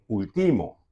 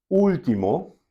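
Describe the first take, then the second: First: Último mis-stressed on TI; último demonstrated with the weight on its second syllable; stress on middle syllable. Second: Último with a high, strong opening U; último, front-stressed as a teaching example; stress on first syllable. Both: Shown as a demonstration. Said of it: "si vos no pone acento arriba U".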